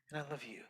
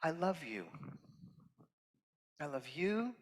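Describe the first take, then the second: First: Last I love you much softer, almost breathed; hushed. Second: A soft, sincere first I love you; tender. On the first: Guest speaker to the audience, softest of three. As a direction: let the final one fall to a near whisper. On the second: Guest speaker to the audience, softly sincere. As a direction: offer it gently to the room. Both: Real, not acted. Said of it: "I'm gonna say this three times".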